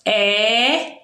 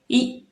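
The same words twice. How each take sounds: First: "E" held long as open é, as in café; open E sound. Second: "E" held as closed ê, as in você; closed E sound. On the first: Teacher showing pupils the two sounds, "E" said open. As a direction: say "E" slowly with an open vowel. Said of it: "E que é um som aberto". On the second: Teacher showing pupils the two sounds, "E" said closed. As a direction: say "E" slowly with a closed vowel. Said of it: "um som fechado". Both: Shown as a demonstration.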